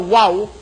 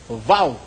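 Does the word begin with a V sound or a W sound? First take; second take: W sound; V sound. First: It begins with a W sound. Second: It begins with a V sound. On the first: This follows the English letter sound. "Imbis na wow" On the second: This is how native speakers say it. "ang pronunciation ng Hebrews, vow"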